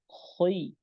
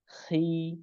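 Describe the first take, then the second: First: The syllable sounds heavy, with a rounded vowel. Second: The syllable sounds light, with a clear i vowel. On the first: The speaker calls it wrong. "pengucapannya bukan khoi" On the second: The speaker calls it right. "langsung kasrah, langsung tipis"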